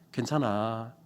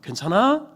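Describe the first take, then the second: First: It ends flat like a calm statement. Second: It rises at the end like a question.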